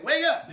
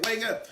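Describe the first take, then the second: First: Much higher and loud coach call; motivating coach. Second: Lightly voiced coaching call; hint of a coach. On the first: Retold or imitated. Coach in your ear, urging you awake loudly. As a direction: rouse them like a coach in the ear. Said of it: "that coach in your ear saying". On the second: Coach nudging you awake, light call. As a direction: nudge them awake. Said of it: "he's saying".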